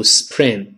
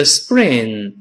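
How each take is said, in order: First: Spring with aspirated P; wrong spring. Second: Spring with P softened to B; correct spring. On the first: Teacher warns the class off it, mispronounced spring. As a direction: puff the P in spring, 's-pring'. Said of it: "不要读spring". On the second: Teacher shows the voiced sound, correct spring. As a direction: say spring as 'sbring'. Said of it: "变成声带震动的b". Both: Shown as a demonstration.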